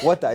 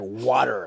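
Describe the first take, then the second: First: It is said in a Ghanaian accent. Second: It is said in an American accent. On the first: "water in Ghana is water" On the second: "here it's like water"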